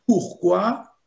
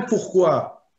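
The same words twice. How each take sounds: First: "pourquoi" slow, stretched on pour, rising; pourquoi drawn out. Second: "pourquoi" joined up, falling at the end; pourquoi as one word. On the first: Showing students the forward-looking meaning, stretched and rising. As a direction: stretch "pourquoi" into pour quoi, lifting the end. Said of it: "c'est pour aller de l'avant". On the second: Showing students the backward-looking meaning, joined and falling. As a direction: say "pourquoi" compactly with a falling tune. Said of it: "c'est de l'ordre du passé". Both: Shown as a demonstration.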